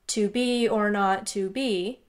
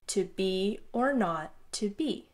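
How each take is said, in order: First: Every syllable gets the same flat weight. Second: Weak beats lead into strong beats throughout. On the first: The speaker calls it wrong. "all monotone and rhythmic" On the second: The speaker calls it right. "going from a weaker emphasis to a stronger emphasis in this rhythm that works"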